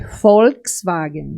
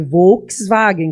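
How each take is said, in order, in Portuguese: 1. O primeiro V é dito com som de F. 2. O primeiro V é dito com som de V. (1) "Em alemão é Volkswagen. ... porque o V tem som de F" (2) "que você fala em português"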